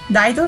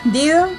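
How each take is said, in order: First: The first vowel sounds like 'eye'. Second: The first vowel sounds like 'ee'. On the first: The speaker calls it right. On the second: The speaker calls it wrong.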